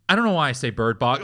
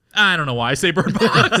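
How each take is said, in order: First: Tour guide. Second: Retelling the guide's line through laughter; laughing quote. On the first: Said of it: "And he goes". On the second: Telling a friend the tour guide's line, laughing. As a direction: quote him while cracking up. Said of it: "And he's like". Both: Retold or imitated.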